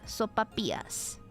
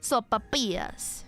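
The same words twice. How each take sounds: First: The double L is said as a Y sound. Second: The double L is said as an L sound.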